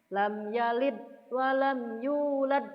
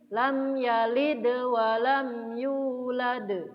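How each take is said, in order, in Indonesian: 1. Konsonan henti di akhir ditahan tanpa dilepaskan. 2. Konsonan henti di akhir dilepaskan dengan pantulan. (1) "Kalau kita tahan" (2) "Maka pantulkan saja"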